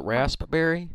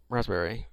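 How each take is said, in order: First: "raspberry" with a clearly popped P; careful "raspberry", pronouncing the silent P; P sounded. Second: "raspberry" said as razz-berry, no P; everyday "raspberry" with a z before the b; P dropped. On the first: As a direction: say "raspberry" as rasp-berry, P released. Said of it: "with the P or without". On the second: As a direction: say "raspberry" casually with the P silent. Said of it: "if I'm saying it fast or slow". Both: Acted.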